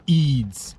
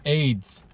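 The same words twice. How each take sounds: First: "Eids" rhyming with needs; long ee in Eids. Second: "aids" rhyming with maids; ay sound in aids. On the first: Listing holidays for listeners, long ee in "Eids". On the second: Correcting a mix-up with Eids, clear ay in "aids". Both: Shown as a demonstration. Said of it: "That's Eids, not aids".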